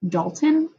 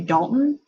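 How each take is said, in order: First: The middle t sound is fully pronounced. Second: The middle t sound is dropped. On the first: "my husband's name is Dalton" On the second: "we like to like forget about certain sounds"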